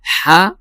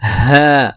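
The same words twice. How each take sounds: First: ہا said as ح from the middle of the throat; the wrong, rougher ح for ہا. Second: ہا breathed from the lowest throat, like English h; light airy ہا from deep in the throat; correct deep ha. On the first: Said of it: "جو کہ وسط حلق سے ادا ہوتا ہے". (ہا کی جگہ ح کی غلط آواز) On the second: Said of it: "تو ہم اس کو پڑھیں گے". (ہا اقصی حلق سے) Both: Shown as a demonstration.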